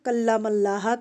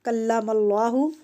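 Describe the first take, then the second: First: The final vowel is an 'a' sound. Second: The final vowel is an 'u' sound. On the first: Moses is the one who spoke to God. The speaker calls it wrong. "उन्होंने बदल कर" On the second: God is the one who spoke to Moses. The speaker calls it right. "असल में लफ्ज़ था"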